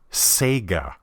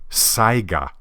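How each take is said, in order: First: The name is said to sound like 'Sega'. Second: The name is said to sound like 'Saiga'. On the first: The speaker calls it wrong. "I've actually heard this pronounced as Sega" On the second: The speaker calls it right. "it's pronounced Saiga"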